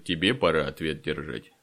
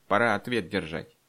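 First: Low, scornful retort; lower-pitched jeering echo; mocking comeback. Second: Self-important elder's proclamation; pompous, angry pronouncement; loud and pompous. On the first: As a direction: throw the threat back, leaning on «тебе». Fyodor throws the words back. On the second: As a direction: declare judgement grandly, voice raised. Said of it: "как громко и важно сказал". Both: A narrator's reading.

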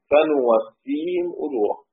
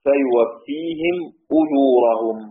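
First: فنوفيهم with a clear nun sound at the start, slow and deliberate; فنوفيهم بالنون ببطء; reading with nun. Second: فيوفيهم with a clear ya sound at the start, drawn out slowly; فيوفيهم بالياء ببطء; Hafs reading with ya. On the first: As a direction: say فنوفيهم slowly, opening on nun. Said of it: "وباقي السبعة كلهم بالنون". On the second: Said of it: "حفص عن عاصم وحده الذي يقرأ بالياء". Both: Shown as a demonstration.

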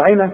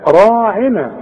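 First: راعنا said with the ا cut short; wrong short vowel. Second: راعنا with the ا held a full alif. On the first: Teacher shows students the wrong short راعنا. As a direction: clip the ra in راعنا. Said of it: "عشان مش تقول راعنا". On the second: Teacher shows students the correct long راعنا. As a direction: draw out the ra of راعنا. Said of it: "عشان تمدها ألف كاملة". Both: Shown as a demonstration.

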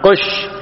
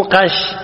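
First: قش said with u, qush; damma on ق. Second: قش said with a, qash; mistaken fatha. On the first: (قش بضم القاف) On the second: (قش بفتح القاف خطأً) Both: Shown as a demonstration. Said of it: "مو قش".

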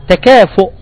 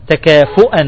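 First: Said in the usual way. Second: "تكافؤا" ending in a clear -an; tanween with fatha. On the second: Shown as a demonstration. Teacher shows the accusative form, "تكافؤا" ending -an. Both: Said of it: "تقول".

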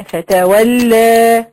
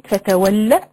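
First: فتولى with the final aa wrongly held long and loud; wrongly added madd. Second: Said in the usual way. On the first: Shown as a demonstration. Showing students the reader's mistake, final vowel wrongly lengthened. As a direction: stretch the end of فتولى into a long aa. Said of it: "زود هنا حرف مد". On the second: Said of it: "يجي عند كلمة".

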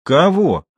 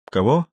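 First: Higher, louder challenging question; sharper repeated question. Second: Said in the usual way. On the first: A narrator's reading. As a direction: demand it with raised pitch. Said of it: "лицо его вдруг стало злобно".

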